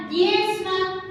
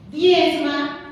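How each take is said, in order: First: Said in the usual way. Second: "Diezma" said again, louder and firmer; firm louder command "Diezma"; louder insistent repeat. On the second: Shown as a demonstration.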